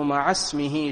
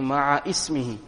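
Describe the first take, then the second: First: The first word runs straight into 'smihi'. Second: A separate 'i' vowel begins the second word. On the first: The speaker calls it right. "Correct pronunciation as we are reading it" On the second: The speaker calls it wrong. "Many a times people pronounce it incorrectly by saying ma'a ismihi"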